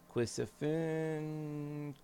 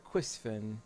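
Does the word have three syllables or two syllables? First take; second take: three; two. First: It has an extra vowel, three syllables. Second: It has no extra vowel, two syllables. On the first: The speaker calls it wrong. "I'm probably pronouncing it totally wrong too" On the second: The speaker calls it right. "There's no extra I in there"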